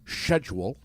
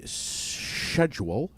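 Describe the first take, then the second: First: It is said with a British pronunciation. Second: It is said with an American pronunciation.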